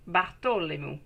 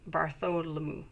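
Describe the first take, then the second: First: Bartholomew said the French way, with a T for the TH; French pronunciation. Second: Bartholomew said the English way, with a soft TH; English pronunciation. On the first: Reader trying out a client's name in a French pronunciation. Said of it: "It's better when I say it in French". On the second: Reader reading out a client's name in English pronunciation. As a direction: say Bartholomew in plain English, TH sounded. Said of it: "I mutilate it in English". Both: Shown as a demonstration.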